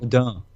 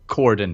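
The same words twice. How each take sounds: First: The word is pronounced in a French way. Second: The word is pronounced in an English way. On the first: The speaker calls it right. "if you want to pronounce it right, you say cordon. It's French" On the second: The speaker calls it wrong. "If you want to pronounce things wrong, then go ahead and pronounce it cordon"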